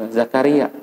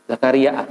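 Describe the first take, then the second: No difference in how they are said.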